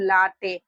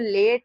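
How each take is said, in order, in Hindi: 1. यह दो अक्षरों में बोला जाता है, lah-tay। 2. यह एक अक्षर में बोला जाता है, layt। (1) "इसको हम लोग लाटे, ये नहीं पढ़ेंगे" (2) "इसको हम लोग पढ़ेंगे लेट"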